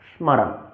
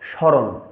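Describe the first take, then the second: First: The m sound is clearly pronounced separately. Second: The m sound is not separately pronounced. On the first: "সংস্কৃতের ক্ষেত্রে উচ্চারণ করতে যাই" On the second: "বাংলা উচ্চারণ ক্ষেত্রে"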